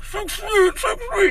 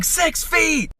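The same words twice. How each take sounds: First: Very high, muffled mock wailing; muffled cry. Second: Very high shouted imitation of an old lady; mock scream. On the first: Old lady caught in an unwanted hug, muffled mock crying. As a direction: squeal it as if smothered in a shoulder, imitating her crying. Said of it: "her voice is all muffled". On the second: Old lady as the shopper reaches over her back, mock screaming. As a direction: shriek it high, mimicking her panic. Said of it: "she starts screaming".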